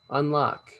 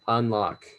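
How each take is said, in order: First: It is said in a higher, put-on voice. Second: It is said in a natural, normal voice.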